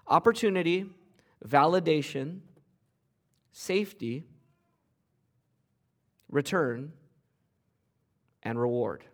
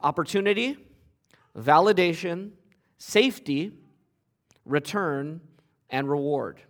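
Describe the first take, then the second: First: The list is said at a slower pace. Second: The list is said at a faster pace.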